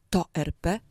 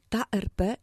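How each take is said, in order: First: "to R P" with TO picked out as the rejected form; contrastive stress. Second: "ta R P" with TA picked out as the correct feminine form; contrastive stress. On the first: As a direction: stress TO in "to R P", citing it as a mistake. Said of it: "a tak czasami mamy możliwość". („to R P” z naciskiem na TO jako formę błędną) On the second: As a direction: set TA firmly against TO in "ta R P". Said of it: "nie to R P". („ta R P” z naciskiem na TA jako formę poprawną) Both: Shown as a demonstration.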